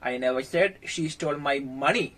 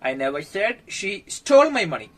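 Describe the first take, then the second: First: The word money carries the main stress. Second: The word stole carries the main stress. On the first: She stole something other than money. "വേറെ എന്തൊക്കെയോ അവൾ മോഷ്ടിച്ചിട്ടുണ്ട്" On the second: She has the money but did not steal it. "അവളെന്റെ പൈസ മോഷ്ടിച്ചെന്ന് ഞാൻ പറയുന്നില്ല, പക്ഷെ തരാൻ വൈകുന്നു"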